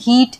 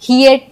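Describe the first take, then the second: First: The vowel is one pure long ee. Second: The vowel glides from ee into uh. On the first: The speaker calls it right. "जैसे हम हीट" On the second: The speaker calls it wrong. "हियट नहीं पढ़ते"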